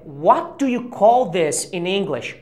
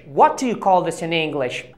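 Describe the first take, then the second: First: Slow, careful teaching read of call; slow demo. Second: Said in the usual way. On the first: Shown as a demonstration. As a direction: spell it out slowly, stressing "call". (leitura lenta e didática) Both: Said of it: "a frase correta é".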